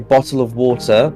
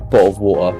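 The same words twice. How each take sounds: First: The T sounds are pronounced clearly. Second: The T sounds are dropped, London style. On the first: The speaker comes from a posh area. "we pronounce the T's because we're from a very posh part of the U K" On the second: The speaker comes from London. "If you're from London, you'd say"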